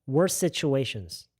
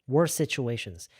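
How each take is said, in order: The two takes are said the same way.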